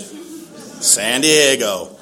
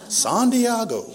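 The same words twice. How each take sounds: First: Very slow, stretched out San Diego; slow "San Diego", each syllable stretched; drawn out. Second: "San Diego" said the Spanish way, higher, dee-AH-go; higher Spanish-style "San Diego"; Spanish pronunciation. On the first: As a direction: drag out "San Diego" in dismay. Disbelief at station. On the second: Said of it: "I will not say the translation". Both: Shown as a demonstration.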